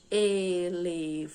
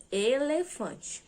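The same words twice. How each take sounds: First: "Elefante" slow, in four separate drawn-out syllables; split into syllables. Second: Said in the usual way. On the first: Shown as a demonstration. Teacher showing how speaking divides a word, "Elefante" syllable by syllable. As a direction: divide "Elefante" evenly, sounding out the final syllable in full. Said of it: "de fazer essa divisão das sílabas". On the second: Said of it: "Então, olha lá".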